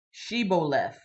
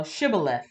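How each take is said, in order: First: "shibboleth" as shee-bo-leth, full vowels; full-vowel pronunciation. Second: "shibboleth" as shib-uh-leth, middle vowel reduced; correct pronunciation. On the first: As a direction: say "shibboleth" with long ee and clear bo. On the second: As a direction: say "shibboleth" quickly joined, short first vowel. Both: Shown as a demonstration. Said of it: "this is the c-, correct way".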